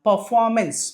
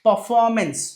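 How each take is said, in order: No difference in how they are said.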